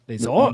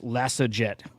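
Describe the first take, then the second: First: The name is said with a French pronunciation. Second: The name is said with an anglicized pronunciation. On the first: The speaker calls it right. "I'm just assuming it's French" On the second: The speaker calls it wrong. "I said this wrong in my video this morning"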